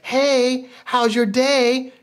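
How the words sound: It sounds warm and eager.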